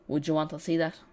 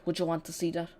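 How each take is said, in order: First: Unintended Irish lilt on the question; accidental Irish accent. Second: Said in the usual way. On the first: Real, not acted. Watch-along host asking viewers, light Irish accent. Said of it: "that was a really Irish accent". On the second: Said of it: "that was a terrible accent".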